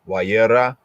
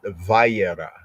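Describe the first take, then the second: First: The word begins with a W sound. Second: The word begins with a V sound. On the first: "our Afro-Shemitic, you know, enunciation, wa and yera" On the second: "other Yehudim call it Vayera"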